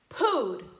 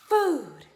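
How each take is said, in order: First: The word begins with a p sound. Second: The word begins with an f sound. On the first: The speaker calls it wrong. "we don't say pooed" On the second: The speaker calls it right. "bite your bottom lip with your top teeth"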